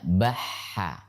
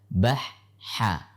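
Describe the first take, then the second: First: The word is said smoothly without a pause. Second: The word is broken by a short pause. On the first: The speaker calls it right. "Jadi baca bahha" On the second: The speaker calls it wrong. "Jika kita membaca dengan dipisah"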